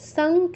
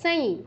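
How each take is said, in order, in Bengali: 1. অনুনাসিকটি ng ধ্বনি। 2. অনুনাসিকটি নাসিকীকৃত y ধ্বনি। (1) "সং কেন?" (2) "ইও থাকলে অনুস্বারে যায় ইও হসন্ত চন্দ্রবিন্দু।"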